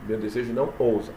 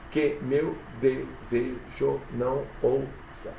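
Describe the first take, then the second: First: Said in the usual way. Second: "Que meu desejo não ousa" slowly split into separate syllables. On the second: Shown as a demonstration. ("Que meu desejo não ousa" devagar, sílaba por sílaba) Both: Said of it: "Conta até a sílaba tônica".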